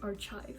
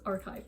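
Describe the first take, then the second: First: The 'ch' is said as 'sh'. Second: The 'ch' is said as 'k'. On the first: The speaker calls it wrong. "I used to pronounce it C H, like sh" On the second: The speaker calls it right. "That is archive"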